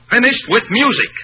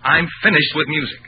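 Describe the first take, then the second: First: Louder, higher repeat of "Finished with music"; defiant outburst; angry repeat. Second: Said in the usual way. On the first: Acted. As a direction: hammer "Finished" home in a raised voice. Repeats it harder.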